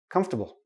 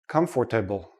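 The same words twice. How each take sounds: First: The middle 'or' syllable is dropped. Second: The middle 'or' syllable is fully pronounced. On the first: The speaker calls it right. "We don't say the or. We say comf, ta, bull" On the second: The speaker calls it wrong. "heard many students say comfortable"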